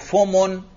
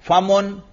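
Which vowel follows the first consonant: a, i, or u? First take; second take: u; a. First: The first syllable has the vowel u. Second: The first syllable has the vowel a. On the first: The speaker calls it wrong. "फा पर आप जम्मा पढ़ते हैं" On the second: The speaker calls it right. "अगर फा पर फतहा पढ़ें"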